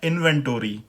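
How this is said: It is said in an American accent.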